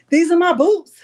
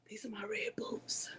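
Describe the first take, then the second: First: High and loud, proud of her boots; almost shouting with delight; excited showing off. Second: Hushed, secretive whisper. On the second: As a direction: breathe it like a secret. Showing off her boots on camera. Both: Real, not acted.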